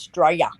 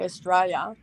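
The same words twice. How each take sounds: First: The opening 'Au' sound is dropped. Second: The opening 'Au' sound is fully pronounced. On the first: The speaker calls it right. "We forget the A U at the front" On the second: The speaker calls it wrong. "we don't say Australia"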